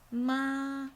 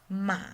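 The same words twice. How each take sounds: First: It is said with the first tone. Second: It is said with the third tone. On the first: "the first tone" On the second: "the third one"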